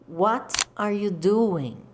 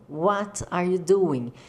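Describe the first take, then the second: Both takes have the same delivery.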